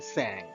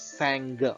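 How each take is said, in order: First: The word ends in ng with no hard g. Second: The word ends with a released hard g. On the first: The speaker calls it right. "We say sang" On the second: The speaker calls it wrong. "We don't pronounce sang"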